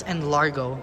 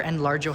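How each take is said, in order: First: Enlargo with a hard g. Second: Enlargo with a soft g, like j. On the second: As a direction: say Enlargo ending in a "jo" sound. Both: Shown as a demonstration. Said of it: "however you say it".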